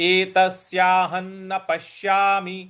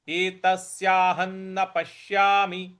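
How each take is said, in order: Both takes have the same delivery.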